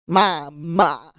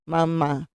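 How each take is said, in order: First: The vowels sound over-wide and choppy. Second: The vowels sound normal and smoothly joined. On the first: The speaker calls it wrong. "some kids might ma ma" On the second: The speaker calls it right. "So if I'm going mama"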